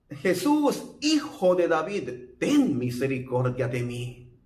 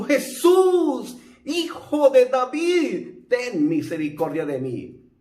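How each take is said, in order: First: Pleading cry, first time. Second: A high, loud, desperate shout to Jesus; louder pleading shout, second time. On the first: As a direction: call out to him, pleading. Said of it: "él clamó y gritó". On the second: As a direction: cry out with everything you've got. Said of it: "el ciego clamó más a gritos". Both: Retold or imitated.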